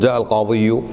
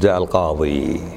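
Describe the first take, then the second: First: The last word ends with a 'yu' sound. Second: The last word ends with a plain 'ee'. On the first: The case ending is spoken aloud. The speaker calls it wrong. "مو حلوة" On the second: The case ending is left unspoken. The speaker calls it right. "شيك تقول"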